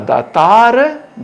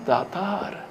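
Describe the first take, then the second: First: The last letter is pronounced fully. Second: The last letter is pronounced weakly.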